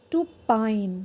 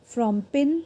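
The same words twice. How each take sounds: First: "pine" with long eye sound, falling; long vowel. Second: "pin" with short i, rising; short vowel. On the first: Teacher drills silent E word, long vowel in "pine". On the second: Teacher drills word before silent E, short vowel in "pin". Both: Shown as a demonstration. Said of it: "वो longer और louder हो जाता है".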